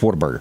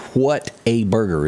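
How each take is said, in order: First: The name is said fast, run together. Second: The name is said slowly, word by word.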